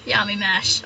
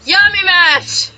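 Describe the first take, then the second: First: Said in the usual way. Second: Excited naming. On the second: Acted. Naming the character with relish.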